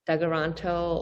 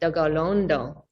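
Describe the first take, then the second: First: It is said with harder T and K sounds. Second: It is said with softer D and G sounds.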